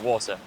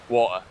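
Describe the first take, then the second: First: The word is pronounced carefully and clearly. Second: The word is pronounced in a relaxed, casual way. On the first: The listener is someone who needs clear speech. "I try my best to speak as clearly as possible" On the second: The listener is a close friend. "when I'm speaking to my mates"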